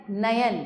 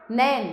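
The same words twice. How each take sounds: First: Said in the usual way. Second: नैन as one syllable, "nain"; नैन said with a gliding "ai"; misspelt single syllable. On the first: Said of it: "सामने शुद्ध करके". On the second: Shown as a demonstration. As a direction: run नैन together without a "ya". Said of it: "अशुद्ध शब्द लिखे हुए".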